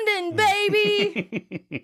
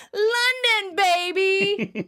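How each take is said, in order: First: High, drawn-out cheer; excited catchphrase. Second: High, loud catchphrase shout; louder, in-your-face. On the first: Retelling Joey's famous catchphrase, excited. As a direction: stretch it out in a mock whoop. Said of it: "says his second famous catchphrase". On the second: Joey says it in Chandler's face, loud and excited. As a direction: blare it right into someone's face. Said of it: "says it louder and in his face". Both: Retold or imitated.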